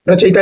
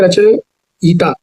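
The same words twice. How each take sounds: First: Said in the usual way. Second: रचयिता slowly, with यि-ता held apart; broken into syllables. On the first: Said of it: "ऐसे नहीं लिखते हैं". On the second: Shown as a demonstration. Teacher showing the correct spelling, रचयिता slowly in parts. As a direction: draw out the ending of रचयिता. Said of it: "यह रहता है".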